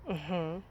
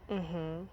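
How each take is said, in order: The two takes are said the same way.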